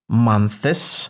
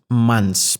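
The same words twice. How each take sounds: First: The word is overarticulated with heavy, forced consonants. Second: The word is said smoothly and lightly, without forcing. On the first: The speaker calls it wrong. "I'm not saying months" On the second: The speaker calls it right. "it's easy, it's fluid, it's buttery"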